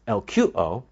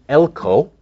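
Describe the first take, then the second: First: It is said with three syllables, el-ku-o. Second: It is said with two syllables, el-ko. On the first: "Sometimes it's pronounced as elkuo" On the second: "The root is elko"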